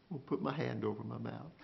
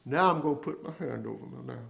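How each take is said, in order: First: Softer and quicker, falling away; hushed. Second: Said in the usual way. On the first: Acted. Job falling silent before God, hushed and quicker. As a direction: say it as if already silenced.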